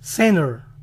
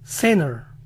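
Both takes have the same delivery.

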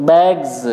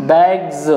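No difference in how they are said.

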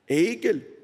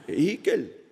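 Both takes have the same delivery.

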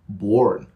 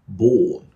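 First: The R sound after the vowel is heard. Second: The R sound after the vowel is silent. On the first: "in American English, where you say ... born" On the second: "So in British English, words like ... born, ... all the R's disappear"

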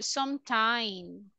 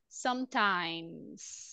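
First: The word ends without a final s sound. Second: The word ends with a strong final s sound. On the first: The speaker calls it wrong. "most of the time, people say sometime" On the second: The speaker calls it right. "let's exaggerate the letter S in the end"

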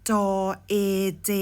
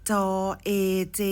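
No difference in how they are said.

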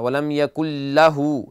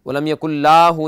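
First: The vowel after the l is kept short. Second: The vowel after the l is drawn out long. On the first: The speaker calls it right. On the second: The speaker calls it wrong.

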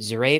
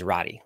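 First: The name does not end with an 'ee' sound. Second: The name ends with an 'ee' sound.

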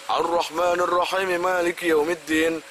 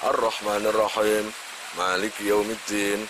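First: The verses run together without any pause. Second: There is a short pause between the verses. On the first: The speaker calls it wrong. "kalau enggak ada wakofannya sama sekali, itu kurang bagus" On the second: The speaker calls it right. "itu kan ada jedanya semua"

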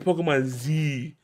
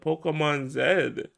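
First: The letter Z has an American pronunciation. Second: The letter Z has a non-American pronunciation.

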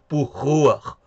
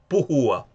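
First: The h is a harsh, raspy throat sound. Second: The h is a soft, breathy sound. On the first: The speaker calls it wrong. "esa J que suena así como Pujúa. No, no, esa no" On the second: The speaker calls it right.

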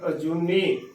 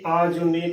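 First: The first vowel is a short 'a'. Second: The first vowel is a long 'aa'. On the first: The speaker calls it right. "ਸਹੀ ਉਚਾਰ ਐੜਾ ਮੁਕਤੇ ਦੇ ਨਾਲ ਕਰਨਾ" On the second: The speaker calls it wrong. "ਨਾ ਕਿ ਆਜੂਨੀ ਕਰਨਾ ਹੈ"

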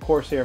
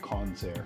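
First: The name has an r sound before the s. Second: The name has an n sound before the s. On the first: The speaker calls it right. "That's how you say it" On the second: The speaker calls it wrong. "I want to say Consair"

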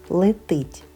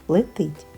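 The two takes are said the same way.

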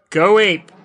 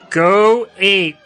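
First: It is said casually, without conviction. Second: It is said with conviction, like Ursus.

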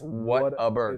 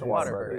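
First: The name begins like the words 'what a'. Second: The name begins like the word 'water'. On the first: The speaker calls it right. "It's Whataburger" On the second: The speaker calls it wrong. "For years, I thought it was Waterburger"

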